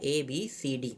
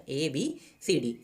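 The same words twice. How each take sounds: First: Said in the usual way. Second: ABCD drawn out letter by letter, slowly; slow and spelled out. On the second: Shown as a demonstration. Teacher repeating ABCD slowly for the class. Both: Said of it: "मैंने बताया ना".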